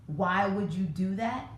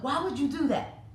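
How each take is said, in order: First: Said in the usual way. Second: Higher, sharp exasperated scolding; scolding parent. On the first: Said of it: "when you ask a child". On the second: Retold or imitated. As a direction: imitate a parent getting on their child. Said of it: "really get on their child".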